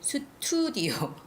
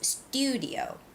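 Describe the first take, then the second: First: The t is said like a Korean tigut. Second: The t is said like an English t. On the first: The speaker calls it wrong. "a lot of Koreans, I know you would say studio" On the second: The speaker calls it right. "so it's studio"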